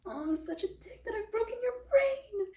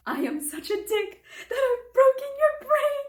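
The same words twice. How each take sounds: First: High, wailing self-reproach; mock wail. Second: High, loud wail breaking with laughter; cracking up. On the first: Olive lamenting she broke Ethan's brain, mock wail. Acts Olive horrified at herself. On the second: Retold or imitated. Reader quoting the funniest line she's read, cracking up. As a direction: squeal the quote out, helpless with amusement. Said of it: "I was cracking up".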